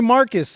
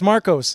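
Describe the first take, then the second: First: The second syllable has a reduced 'uh' vowel. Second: The second syllable has a full 'oh' vowel. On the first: This is how other people mistakenly say it. The speaker calls it wrong. "people call me Marcus" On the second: This is the name's real pronunciation. The speaker calls it right. "it's Marcos"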